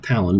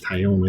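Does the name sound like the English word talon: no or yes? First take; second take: yes; no. First: The name sounds like the English word talon. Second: The name has a French-like sound, unlike talon. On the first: The speaker calls it wrong. "It's not Talon" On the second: The speaker calls it right. "but it's Taillon, I think. I think it's Cajun"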